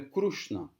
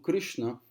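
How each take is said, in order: First: The vowel after the R sounds like 'u'. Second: The vowel after the R sounds like 'i'.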